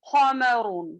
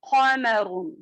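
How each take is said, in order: The two takes are said the same way.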